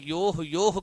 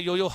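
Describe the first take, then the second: First: Each syllable ends with a breathy h sound. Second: Each syllable ends cleanly on the vowel. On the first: The speaker calls it right. "योह योह की ध्वनि आती है" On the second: The speaker calls it wrong. "[name] नहीं"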